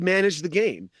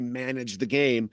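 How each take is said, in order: First: It is said in a sincere, approving tone. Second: It is said in a dismissive, sneering tone. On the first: The play was genuinely solid and careful. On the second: The play was merely adequate, nothing special.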